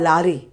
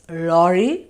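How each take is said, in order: First: The first vowel is an open 'ah' sound. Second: The first vowel is a rounded 'aw' sound. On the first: The speaker calls it wrong. "You say ah, lari" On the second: The speaker calls it right. "No, it's lorry"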